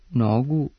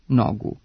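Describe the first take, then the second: First: The first syllable has a short rising accent. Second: The first syllable has a short falling accent. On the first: "trebalo bi izgovarati sa kratkouzlaznim akcentom" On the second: "sa kratkosilaznim, a ne sa kratkouzlaznim akcentom"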